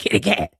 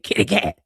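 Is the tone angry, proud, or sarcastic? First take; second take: angry; angry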